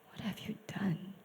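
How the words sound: It is said in a heartbroken, pained tone.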